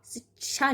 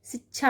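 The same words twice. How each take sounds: First: शिक्षा as sit-cha, little breath on ch; wrong unaspirated ch. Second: शिक्षा as sich-chha, breath on chh; corrected aspirated chh. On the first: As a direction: say शिक्षा as sicha. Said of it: "नहीं होता". (शिक्षा को सिचा जैसा बोलें) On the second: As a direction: say शिक्षा as sichchha. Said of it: "होता है". (शिक्षा को सिच्छा जैसा बोलें) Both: Shown as a demonstration.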